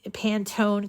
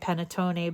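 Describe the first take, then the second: First: The name is pronounced the English way. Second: The name is pronounced the Italian way. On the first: The speaker calls it right. "but Pantone colors" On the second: The speaker calls it wrong. "I'm pronouncing it Italian way"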